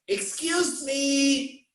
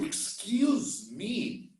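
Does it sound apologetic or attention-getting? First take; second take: attention-getting; apologetic. First: It sounds like a call for someone's attention. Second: It sounds like an apology for bumping someone. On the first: The speaker wants someone to notice them. "If I want to call your attention on the street, I go like" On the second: The speaker apologizes for bumping someone. "then I change intonation. Oh"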